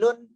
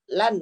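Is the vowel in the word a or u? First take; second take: u; a. First: The word has an u vowel. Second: The word has an a vowel. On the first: The speaker calls it wrong. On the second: The speaker calls it right.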